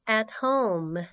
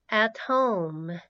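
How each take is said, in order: Both takes have the same delivery.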